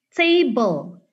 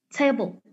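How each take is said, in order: First: A clear vowel is heard before the final l. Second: The final l follows without any vowel. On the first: This is how Indonesian speakers say it. "Kalau kita itu bilangnya table, dibaca E-nya" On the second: This is how native speakers say it. "Tapi kalau orang luar... Jadi ininya tuh digabung gitu"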